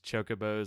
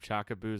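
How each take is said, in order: First: The name is said as 'chocobos'. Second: The name is said as 'chakaboos'. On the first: It is the name most people use. The speaker calls it right. "the fact that it's chocobos" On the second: It is the name used growing up. The speaker calls it wrong. "I'm always going to call them chakaboos"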